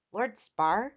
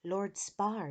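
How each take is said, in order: First: "Lord Spar" louder, rising into a question; puzzled repeat. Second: Said in the usual way. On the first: A narrator's reading. Eric repeats Kia's words, "Lord Spar" as rising question. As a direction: query "Lord Spar" as an unknown name. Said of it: "Eric repeated".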